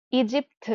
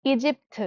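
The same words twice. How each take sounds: The two takes are said the same way.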